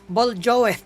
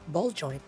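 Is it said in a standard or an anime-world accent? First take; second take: anime-world; standard. First: It is said in the anime-world accent. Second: It is said in a standard accent.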